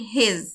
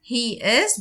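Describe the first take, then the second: First: The words are contracted into one syllable. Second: Two full words are said separately.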